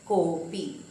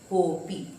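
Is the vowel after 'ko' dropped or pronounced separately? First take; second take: dropped; dropped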